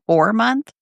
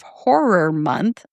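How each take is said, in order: First: It is said fast, with syllables run together. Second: Every syllable is pronounced slowly and clearly. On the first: The speaker calls it wrong. "if I say it fast" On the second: The speaker calls it right. "I'm being very cautious of like pronouncing every syllable"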